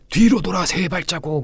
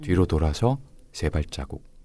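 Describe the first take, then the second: First: It is said loudly and resonantly. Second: It is said at normal volume.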